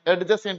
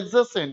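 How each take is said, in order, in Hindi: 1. j से पहले की d ध्वनि बोली जाती है। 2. j से पहले की d ध्वनि छोड़ दी जाती है। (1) "एडजेसेंट नहीं" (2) "इट इज कॉल्ड एडजेसेंट"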